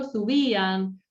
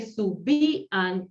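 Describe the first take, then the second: First: Said in the usual way. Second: "Subían" slowly split as su-BÍ-an; "Subían" drawn out slowly in three separate syllables. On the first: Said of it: "Por ejemplo". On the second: Shown as a demonstration. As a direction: break "Subían" into syllables, holding the í apart from the a. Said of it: "porque se separa la sílaba".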